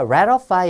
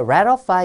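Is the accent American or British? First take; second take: American; American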